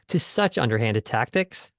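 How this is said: The word such carries the main stress. The degree of the tactics is highlighted. "if he wanted to hit the word such"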